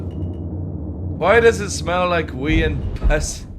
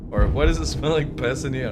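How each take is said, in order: First: Very slow, drawn-out movie quote; slow quoted film line. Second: Said in the usual way. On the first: Retold or imitated. Recalling a film scene, drawn-out slow quote. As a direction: stretch every word of the line out. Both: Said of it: "what movie is that from".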